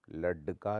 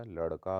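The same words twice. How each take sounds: First: लड़का said as lad-ka; hard d. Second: Said in the usual way. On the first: Shown as a demonstration. Teacher shows the error, लड़का with hard ड. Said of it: "नहीं होता". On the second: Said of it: "होता है".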